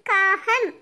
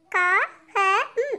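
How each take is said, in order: First: Said in the usual way. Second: காகம் sounded out very slowly in separate pieces; letter by letter. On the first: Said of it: "உச்சரித்து வாசிங்க". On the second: Shown as a demonstration. Pupil reads aloud for the teacher, காகம் letter by letter. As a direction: break காகம் up, a pause after each letter. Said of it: "ஒவ்வொரு எழுத்தா உச்சரித்து வாசிங்க".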